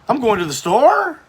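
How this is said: The voice rises at the end like a question. The statement sounds like a question. "College kids today, especially girls"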